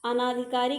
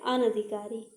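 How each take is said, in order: First: अनाधिकारी said as 'a-NAA-dhikaari'; long second vowel. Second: अनधिकारी said as 'a-na-dhikaari'; short second vowel. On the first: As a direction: stretch the 'naa' in अनाधिकारी. (अनाधिकारी में 'ना' लंबा) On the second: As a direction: keep 'na' short in अनधिकारी. (अनधिकारी में 'न' छोटा) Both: Shown as a demonstration. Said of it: "अनाधिकारी गलत है".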